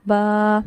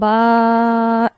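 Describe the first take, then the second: First: The vowel is lengthened only slightly. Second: The vowel is stretched out very long. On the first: The speaker calls it right. "ये थोड़ा सा लंबा करना, इतना ही, इससे ज़्यादा नहीं" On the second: The speaker calls it wrong. "इतना लंबा नहीं करेंगे"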